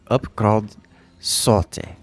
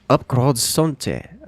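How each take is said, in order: First: No N sound is heard in the name. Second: An N sound is heard in the name. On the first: The speaker calls it right. "Focus on it real hard" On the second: The speaker calls it wrong. "I pronounced the N a little bit, a little bit too much"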